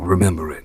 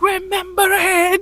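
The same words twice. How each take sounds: First: The phrase is said quietly, without yelling. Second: The phrase is yelled out loudly. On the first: The speaker calls it right. "it felt so much better when he was, you know" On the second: The speaker calls it wrong. "As opposed to being like"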